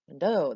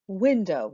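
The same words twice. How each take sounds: First: The stress is on the second syllable. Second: The stress is on the first syllable. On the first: The speaker calls it wrong. "We don't say look out the window, window" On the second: The speaker calls it right. "We say window"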